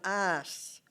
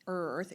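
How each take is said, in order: First: The word is said with an 'a-ss' sound. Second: The word is said with a clear 'er-th' sound. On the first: "it came out ass" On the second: "it didn't come out earth, earth"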